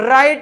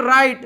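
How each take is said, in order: Both takes have the same delivery.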